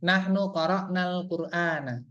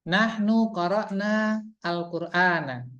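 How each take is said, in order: First: The article is joined onto the previous word. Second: The article is said separately from the previous word.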